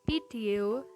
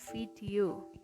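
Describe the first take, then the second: First: The word begins with a p. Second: The word begins with a v. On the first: The speaker calls it wrong. "fonem V diucapkan menjadi P" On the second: The speaker calls it right.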